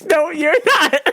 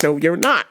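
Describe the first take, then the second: First: High, slow mock refusal through laughter; stretched, squealed denial with laughing; imitating boss while laughing. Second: Lightly voiced boss shutting it down; imitating boss. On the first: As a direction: crack up while playing the boss. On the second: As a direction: lower mock refusal. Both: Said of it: "then my boss is like".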